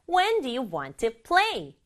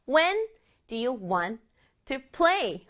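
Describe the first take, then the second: First: It is said faster and naturally. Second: It is said slowly and robotically.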